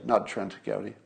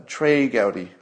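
First: Trent Gowdy said as the wrong name, with a T and n; quiet Trent Gowdy, the mistake. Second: Trey Gowdy said with Trey rhyming with day; Trey Gowdy, the fixed name; correct name Trey. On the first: Correcting his slip to viewers, names the wrong Trent Gowdy. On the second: Correcting his slip to viewers, says Trey Gowdy properly. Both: Shown as a demonstration. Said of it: "people are correcting me in the comments".

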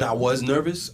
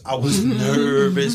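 First: Said in the usual way. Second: "nervous" drawn out slowly and louder; stress on nervous. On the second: Real, not acted. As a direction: lean hard on "nervous", stretching the first syllable. Repeats it with drawn-out emphasis.

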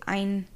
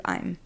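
First: "Ein", an n in place of the m; mispronounced contraction. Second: Said in the usual way. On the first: Retold or imitated. Quoting people who get it wrong, "Ein" with an n. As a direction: say "Ein" ending on n, no m. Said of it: "There's people who say". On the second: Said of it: "instead of".

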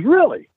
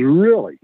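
First: High-pitched doubting question; sceptical. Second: Intrigued. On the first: Doubting man questions the newcomer's claim. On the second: Same man, now recognising trainer's name. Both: Retold or imitated.

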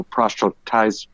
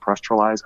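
First: Proselytize garbled as prostratize; stumbled word. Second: Proselytize retried as pros-tra-lize, closer to right; self-correction. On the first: Fighter stumbling over a long word, garbled proselytize. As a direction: trip over proselytize, slurring its middle. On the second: Fighter correcting himself, careful retry of proselytize. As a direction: repeat proselytize more carefully. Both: Real, not acted.

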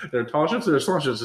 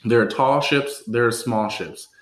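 First: Rushed, higher-pitched tongue twister with a laugh; five times fast. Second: Slow, measured toast recital; careful retry. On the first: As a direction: rattle it off playfully at double speed. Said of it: "Say it five times fast". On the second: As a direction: recite the tongue twister deliberately, phrase by phrase. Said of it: "let's try this one more time". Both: Shown as a demonstration.

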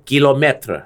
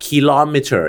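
First: Kilometer said slowly with a French unaspirated k, like กี่. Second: Kilometer with an English aspirated k at the start. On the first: Host shows listeners the French k in kilometer, slow. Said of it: "ฝรั่งเศส kilometer ใช่ไหมกี่". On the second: Host explains to listeners the English k sound in kilometer. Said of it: "ฝรั่งเรียก kilometer คือคอควาย". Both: Shown as a demonstration.

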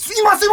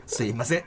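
First: すいません pitched very high; exaggerated correction. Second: すいません low and soft; rejected intonation. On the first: Mimicking the nitpicking correction of his line, exaggerated intonation. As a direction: shoot すいません up high, overdone. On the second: Retold or imitated. Replaying the take that got rejected, low intonation. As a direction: say すいません down low, without any lift. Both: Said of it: "じゃ、違います".

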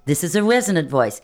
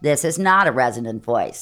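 First: Full resonant "This is a resonant voice", open and ringing. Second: "This is not a resonant voice" dropped lower, pinched and dull; non-resonant voice. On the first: Coach showing students a resonant voice, full and ringing. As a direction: let it ring in the face. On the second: Coach contrasting with a pinched non-resonant voice. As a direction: squeeze the sound thin. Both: Shown as a demonstration.

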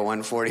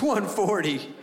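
First: Said in the usual way. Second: Retold doctor's higher, doubtful repeat; incredulous echo. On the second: Doctor doubting the patient's stated weight, incredulous. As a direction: repeat the figure back in imitated disbelief.

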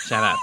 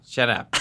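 First: Tiny squeaky rat voice, pitched way up. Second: Said in the usual way. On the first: Acted. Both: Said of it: "It's just a little rat voice".

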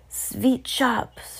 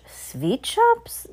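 First: Slow, higher witch voice, "Sweet" as sveet; accented witch proclaiming "Sweet shops"; shouted announcement. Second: Very high, rising question on "Sweet shops"; incredulous high-pitched crowd echo; astonished cry. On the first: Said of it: "shouted the Grand High Witch". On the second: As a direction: squeal "Sweet shops" in disbelief, swooping up. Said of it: "they all cried". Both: A narrator's reading.

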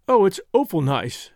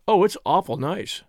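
First: Awful with a close, rounded OH vowel; English ladies' pronunciation. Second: Awful with an open AW vowel; American pronunciation. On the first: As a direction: say "awful" as OH-ful, English style. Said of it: "Your ladies say". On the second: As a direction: say "awful" as AW-ful, American style. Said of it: "Ours say". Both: A narrator's reading.

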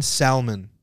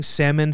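First: Salmon said as "SAL-mun"; salmon with a short a and a clear l; mispronounced salmon. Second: Said in the usual way. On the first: Retold or imitated. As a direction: sound the l in salmon. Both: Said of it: "he was pronouncing salmon".

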